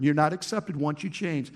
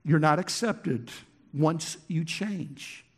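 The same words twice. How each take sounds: First: Said in the usual way. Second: "once you change" slowed right down; weighty, deliberate stress; emphatic slow take. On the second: Shown as a demonstration. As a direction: drag out "once you change" to make it sink in. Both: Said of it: "This is so important".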